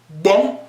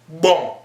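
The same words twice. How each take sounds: First: The word is said with a higher tone. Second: The word is said with a lowered tone. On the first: It means done. "Ou bon, ça veut dire fait" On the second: It means to do. "Quand on baisse le ton, si on dit bon, ça veut dire faire"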